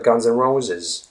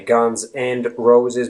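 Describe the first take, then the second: First: The word 'and' is reduced to 'n'. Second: The word 'and' is said in full. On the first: The speaker calls it right. "but Guns N' Roses" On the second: The speaker calls it wrong. "you don't say Guns and Roses"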